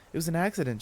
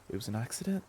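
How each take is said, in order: First: ACCIDENT falling, as a settled statement; reassuring statement. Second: ACCIDENT softer and rising, as a question; tentative question. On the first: Claire comforts Jamie, "accident" falling in reassurance. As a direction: stress "accident" and let it fall. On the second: Jamie checks with Claire, "accident" rising tentatively. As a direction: lift "accident" into a small question. Friend asks for confirmation. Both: Acted.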